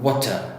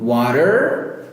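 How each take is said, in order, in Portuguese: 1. O R final é omitido. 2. O R final é claramente pronunciado. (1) "O britânico já vem e corta" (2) "O americano tem bem forte"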